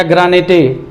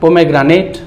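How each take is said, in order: First: "ग्रानेटे" with an extra "tay" ending; wrong pronunciation. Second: "पोमेग्रेनेट" ending on a bare t; whole word "पोमेग्रेनेट" joined up, final e unspoken; silent final e. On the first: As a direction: sound the silent e at the end of "ग्रानेटे". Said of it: "नहीं पढ़ेंगे". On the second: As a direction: close "पोमेग्रेनेट" on t, no vowel after it. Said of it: "केवल टा पढ़ेंगे इसमें". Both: Shown as a demonstration.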